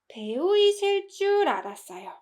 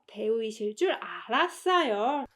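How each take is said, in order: First: 이실 줄 is said with strong emphasis. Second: 이실 줄 is said without extra emphasis. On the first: The guess turned out to be wrong. "If I put emphasis on 이실 줄" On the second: The guess turned out to be correct. "I knew you would be an actress, implying that, oh, my guess was right"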